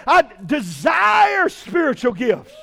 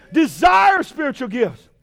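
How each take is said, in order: First: Shouted quote. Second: Shouted repeat. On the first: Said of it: "quoting Paul then repeating". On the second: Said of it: "repeating the quote". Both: Shown as a demonstration.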